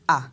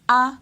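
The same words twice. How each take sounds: First: The vowel is said on a low tone. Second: The vowel is said on a high tone. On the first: "le ton bas ... on va descendre avec l'intonation" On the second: "on prononce les voyelles comme ceci ... c'est le ton haut ... l'intonation monte"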